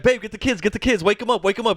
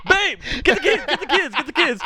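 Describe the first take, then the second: First: Higher but calmer retelling of the panic; a toned-down hint of alarm; lighter mock urgency. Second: Much higher urgent calling to his partner; hammed-up alarm, rushing the family; mock panicked dad. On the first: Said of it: "little joke where he's like". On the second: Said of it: "And he's like".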